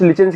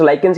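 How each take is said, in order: First: The first syllable sounds like 'lich' with a ch. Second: The first syllable sounds like 'lie' with a k. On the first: "कुछ लिचेंस कहते हैं" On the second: "I guess लाइकेंस is the correct pronunciation"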